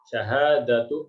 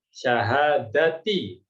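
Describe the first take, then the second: First: The word ends with an 'u' vowel. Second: The word ends with an 'i' vowel. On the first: The speaker calls it wrong. "salah ya" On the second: The speaker calls it right. "yang betul adalah syahadati"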